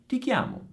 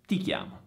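First: "ti chiamo" with "ti" lifted high and falling; high stress. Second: "ti chiamo" dropped low and soft, falling on "ti". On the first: Teacher modelling the Italian answer, stressed high. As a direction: land on "ti" in "ti chiamo". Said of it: "In italiano diventa". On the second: Teacher repeating the answer, low and settled. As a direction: let "ti chiamo" sink low. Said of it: "Oppure quando arriverò". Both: Shown as a demonstration.

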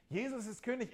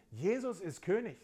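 First: "Jesus ist König" lifted high, ringing out; emphatic proclamation. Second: Said in the usual way. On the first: Real, not acted. Preacher repeating to the congregation that Jesus is king, emphatic.

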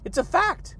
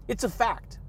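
First: "It's a fact" jumps high and rises at the end; high rising repeat. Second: Said in the usual way. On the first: Shown as a demonstration. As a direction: toss it back up high like a playful echo. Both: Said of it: "accept them as a fact".

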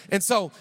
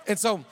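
The two takes are said the same way.

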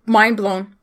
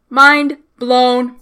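First: Said in the usual way. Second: "Mind blown" loud, each word separate; amazed emphasis. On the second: Real, not acted. Fan stunned by the ending, "Mind blown" loud and separated. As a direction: punch "Mind", pause, punch "blown".

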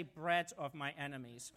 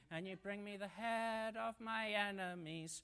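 First: "Bread" said in place of "head", low and playful; playful word swap. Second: Said in the usual way. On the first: Shown as a demonstration. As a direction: joke swap, land on "Bread". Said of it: "let's say". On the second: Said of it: "lovely little line".

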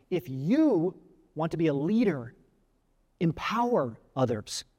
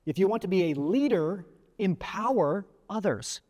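First: "you" drawn out and lifted, slow and personal; stress on YOU. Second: "leader" emphasised, then slow "empower others"; deliberate maxim, weight on "leader"; stress on LEADER. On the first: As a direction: punch "you", pause, then slow "empower others". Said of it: "make it more personal by saying". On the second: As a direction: lean on "leader", stretch "empower". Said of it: "some great examples here of how you can say". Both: Shown as a demonstration.

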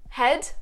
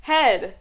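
First: "Head?" with rising question tune; "Head?" lifted at the end, asking; question intonation. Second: Said in the usual way. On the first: Shown as a demonstration. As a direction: say "Head?" as a question, ending upward. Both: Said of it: "Question mark".

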